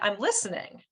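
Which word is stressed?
listening. The stress is on "listening".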